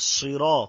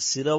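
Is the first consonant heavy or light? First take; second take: heavy; light. First: The s sound is thick and heavy. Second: The s sound is thin and light. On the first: The speaker calls it right. "একটু মোটা ভাবে" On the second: The speaker calls it wrong. "সিরা বললে সিনের মতো হয়ে যাবে এটা ভুল হয়ে যাবে"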